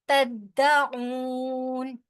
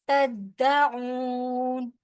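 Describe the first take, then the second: Both takes have the same delivery.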